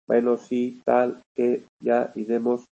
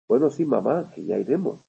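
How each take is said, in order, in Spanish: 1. Cada palabra suena entrecortada, plana y como de máquina. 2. Las palabras fluyen con melodía y ritmo naturales. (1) "Es como un hablar, cuando empezaron los primeros ordenadores que hablaban" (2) "en lugar de decir"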